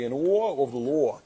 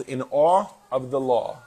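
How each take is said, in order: First: Kids mocking a New York accent, drawn out. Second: Said in the usual way. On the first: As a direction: imitate the kids teasing Dad's New York accent, slowly. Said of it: "they like to make fun of my New York accent". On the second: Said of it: "Or as my kids would say it".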